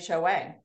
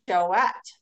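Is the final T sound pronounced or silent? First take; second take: silent; pronounced. First: The final T sound is silent. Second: The final T sound is pronounced. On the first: The speaker calls it wrong. "I always was thinking it was" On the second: The speaker calls it right. "you pronounce the T"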